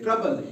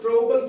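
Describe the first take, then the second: First: The first vowel sounds like 'uh'. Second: The first vowel sounds like 'o'. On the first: The speaker calls it right. "यू अ अ की आवाज देता है" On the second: The speaker calls it wrong. "ट्रोबल क्यों नहीं बना?"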